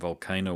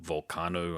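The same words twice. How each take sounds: First: The name is said in an English way. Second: The name is said in a Portuguese way.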